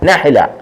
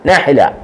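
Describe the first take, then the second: The two takes are said the same way.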